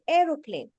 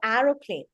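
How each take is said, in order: First: The first vowel is a long sound. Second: The first vowel is a short sound. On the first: The speaker calls it right. "I say aeroplane. So the first letter in that is sounding a long vowel" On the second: The speaker calls it wrong. "I don't say aeroplane"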